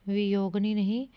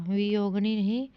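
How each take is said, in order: No difference in how they are said.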